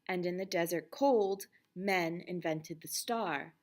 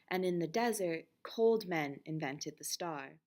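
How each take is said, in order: First: The pause comes after the word cold. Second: The pause comes before the word cold.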